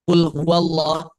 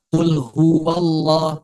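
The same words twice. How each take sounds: First: Said in the usual way. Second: "qul huwallah" with the "hu" stretched; over-lengthened vowels. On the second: Shown as a demonstration. Teacher shows the forbidden reading, "qul huwallah" too long. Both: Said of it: "jangan dibaca qul huwallah".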